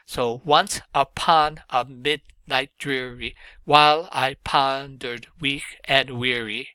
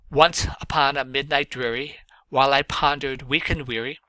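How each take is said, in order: First: Slow, once and mid stressed, beats marked; stress pattern demo. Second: Measured recital, rising at each line end; poem recitation. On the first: Teacher showing the class a stress pattern, slow. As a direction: beat out the trochees. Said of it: "This is a stress pattern". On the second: Teacher reading Poe aloud to students, recited. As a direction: read it as a poem to the class. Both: Shown as a demonstration.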